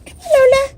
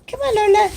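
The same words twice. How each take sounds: First: Calling out louder and higher to the pet. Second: Said in the usual way. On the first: Real, not acted. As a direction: raise the voice to call the pet out.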